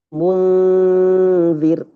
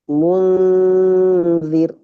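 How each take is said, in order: No difference in how they are said.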